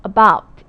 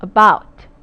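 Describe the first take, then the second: First: Said in the usual way. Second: About said loud, beat on the second syllable; stressed model word. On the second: Shown as a demonstration. Teacher modelling About with stress on baut. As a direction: hit About loudly. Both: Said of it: "바로 about 이렇게 되죠".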